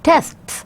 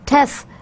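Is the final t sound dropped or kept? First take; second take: kept; dropped. First: The word ends with its final t sound. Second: The word ends without its final t sound. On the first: "do they pronounce the uh, T at the end or not?" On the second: "if someone says uh, Tess for tests"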